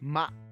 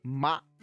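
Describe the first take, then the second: Both takes have the same delivery.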